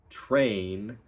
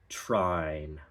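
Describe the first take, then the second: First: The vowel sounds like 'ay'. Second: The vowel sounds like 'eye'. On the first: "it goes from train" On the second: "that A turns into more of an I"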